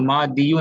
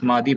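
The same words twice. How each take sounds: First: मादियु with an added "-yu" ending; dammah pronounced. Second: मादी ending on a plain long "ee"; sukoon ending. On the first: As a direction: sound the final short u in मादियु. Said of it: "मादियु नहीं पढ़ते इसको". (मादियु के अंत में दम्मा बोलकर) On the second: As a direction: stop on the ee of मादी, no final u. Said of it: "बस मादी पढ़ते हैं". (मादी को सुकून के साथ, दम्मा के बिना) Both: Shown as a demonstration.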